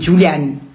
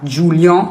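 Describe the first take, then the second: First: The ending has a clearly pronounced n. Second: The ending is a nasal vowel without n. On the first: The speaker calls it right. "c'est Julian" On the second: The speaker calls it wrong. "pour qu'on ne dise pas An"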